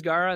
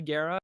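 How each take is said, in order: First: Gaara with an open "ah"; usual pronunciation. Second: Gaara with an "air" vowel; corrected pronunciation. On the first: Shown as a demonstration. Voice actress's first attempt, Gaara said "GAH-ra". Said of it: "Oh, no, it's actually Gaara". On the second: Retold or imitated. Recording team correcting her, Gaara said "GAIR-a". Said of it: "and they're like".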